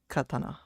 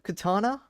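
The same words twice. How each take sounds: First: It is said with a Japanese pronunciation. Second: It is said with an English pronunciation. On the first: "in Japanese they would pronounce it more like katana" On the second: "You say it like that"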